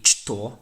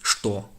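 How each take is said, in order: First: The word begins with a ch sound. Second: The word begins with an sh sound. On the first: The speaker calls it wrong. "You'd think it would be что" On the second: The speaker calls it right. "the letter ch isn't pronounced ch, it's pronounced sh"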